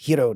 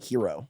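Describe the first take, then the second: First: It is said as the Japanese name. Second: It is said like the English word hero. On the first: The speaker calls it right. "a Japanese name is Hiro" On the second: The speaker calls it wrong. "not Hero"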